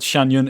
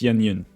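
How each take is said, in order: First: The first syllable sounds like 'shan'. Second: The first syllable sounds like 'shyen'. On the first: The speaker calls it wrong. "It's not Shan Yun" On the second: The speaker calls it right. "it's Xian Yun"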